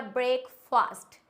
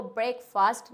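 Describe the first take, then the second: First: "ब्रेकफास्ट" slowly as brake-faast; wrong pronunciation. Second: "ब्रेकफास्ट" as brek-fust, last vowel reduced; correct pronunciation. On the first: Teacher shows a mistake, "ब्रेकफास्ट" as slow brake-faast. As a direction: say "ब्रेकफास्ट" as two slow full words. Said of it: "ब्रेकफास्ट बिल्कुल गलत होता है". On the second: Teacher corrects learners, "ब्रेकफास्ट" as brek-fust. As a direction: say "ब्रेकफास्ट" with a short second vowel. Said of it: "हम बोलते हैं". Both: Shown as a demonstration.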